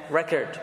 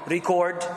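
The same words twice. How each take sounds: First: "record" as the verb, re-CORD. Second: "record" as the noun, RE-cord. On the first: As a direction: stress the second syllable of "record". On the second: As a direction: stress the first syllable of "record". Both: Shown as a demonstration. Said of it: "a verb or a noun depending on the way you pronounce them".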